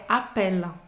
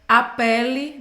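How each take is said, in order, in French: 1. Le mot finit net sur le son L. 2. Une voyelle finale se prononce après le L. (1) "É appelle" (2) "não é appelle"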